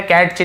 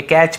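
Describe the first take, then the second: First: कैच with a T sounded before CH; wrong pronunciation. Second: कैच with a plain CH, no T; silent T. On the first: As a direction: say कैच as "cat-ch", voicing the T. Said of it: "टी silent है". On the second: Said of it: "कैच पढ़ेंगे". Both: Shown as a demonstration.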